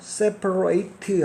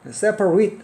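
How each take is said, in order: First: The last syllable is a full 'rate'. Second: The last syllable is a short, weak 'rit'. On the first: It is the verb meaning to separate. "동사일 때는 rate라고 읽고요. separate 하면요 분리하다" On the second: It is the adjective meaning separated. "형용사일 때는 read로 읽습니다. separate 하면요 분리된 이런 뜻이고요"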